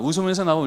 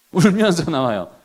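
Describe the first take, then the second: First: Said in the usual way. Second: 울면서 said in a mock-tearful voice; mock crying. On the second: Shown as a demonstration. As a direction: act out the child leaving in tears, lightly. (우는 시늉을 하듯 "울면서"를 말하기)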